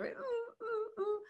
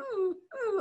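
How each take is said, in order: First: High, softer crying whimper of a dog, drawn out; a hurt dog's faint whine, lying on a nail. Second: High whimpering dog imitation, a pained "ooh". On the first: Retold or imitated. Dog shifting on the veranda, soft crying whimper. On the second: Dog on the veranda whimpering in pain, high whimper. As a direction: whimper like a hurt dog lying on a nail. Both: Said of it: "the dog's whimpering, kind of going".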